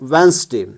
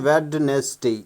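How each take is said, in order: First: The middle syllable is dropped. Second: The middle syllable is pronounced. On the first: The speaker calls it right. "It is pronounced वेंसडे" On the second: The speaker calls it wrong. "कुछ लोग इसको पढ़ते हैं वेडनेसडे"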